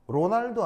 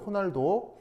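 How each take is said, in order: First: The name starts with an R sound. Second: The name starts with an H sound. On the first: The speaker calls it wrong. "로날도 아니고" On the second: The speaker calls it right. "포르투갈어에서 R은 H 발음이네요"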